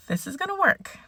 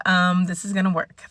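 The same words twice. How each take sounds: First: Sing-song self-reassurance; high hopeful repeat. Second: Said in the usual way. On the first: Real, not acted. Vlogger reassuring herself, repeated much higher and softer. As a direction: lift it up high, softer, convincing yourself.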